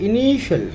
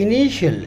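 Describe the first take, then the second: Both takes have the same delivery.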